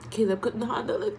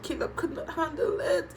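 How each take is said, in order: First: Said in the usual way. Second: Could not stretched out, higher, laughing through tears; tearful emphasis. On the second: Real, not acted. Vlogger retelling Caleb's tears to viewers, tearful emphasis. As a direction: lean on not while welling up.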